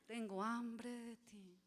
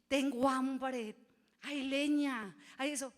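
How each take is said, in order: First: Soft, slow, hushed longing; tender longing. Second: Loud, slow, insistent cry for food; demanding shout. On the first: Preacher voicing a believer longing for God, soft and slow. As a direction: breathe it out softly and slowly to God. Same phrase turned to longing. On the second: Preacher voicing a hungry believer, loud and slow. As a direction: call it out slowly and loudly, as if demanding. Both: Pretend.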